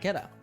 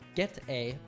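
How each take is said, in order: First: The words are linked with a flapped d-like sound. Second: The two words are said separately and fully.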